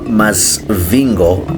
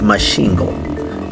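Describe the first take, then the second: First: The middle consonant is pronounced as 'sv'. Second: The middle consonant is pronounced as 'sh'. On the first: The speaker calls it wrong. "it's not Masvingo" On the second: The speaker calls it right. "So the locals here pronounce it as such"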